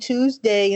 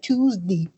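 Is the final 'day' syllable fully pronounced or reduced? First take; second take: full; reduced. First: The final syllable is a full 'day'. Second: The final 'day' syllable is reduced. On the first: This is how younger people say it. "you stop saying Tuesday" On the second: This is how older people say it. "say like Tuesday for some reason"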